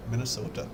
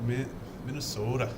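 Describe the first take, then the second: First: Put-on "Minnesota" said with a Minnesota accent. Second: Put-on second try at "Minnesota" in a Minnesota accent. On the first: Trying out how they say their state, Minnesota accent. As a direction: imitate a Minnesotan saying "Minnesota". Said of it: "I say Minnesota in my head with their accent". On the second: Checking how they say it, imitated Minnesota accent. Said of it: "Isn't that how they do it?".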